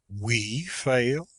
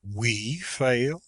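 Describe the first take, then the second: First: It sounds indignant and astonished, stressing "we". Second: It sounds indignant and astonished, stressing "we".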